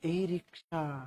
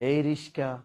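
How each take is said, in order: First: It is called the way girls call. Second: It is called the way boys call. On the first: "মাইয়েরা ডাকে" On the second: "পোলারা কি কায়?"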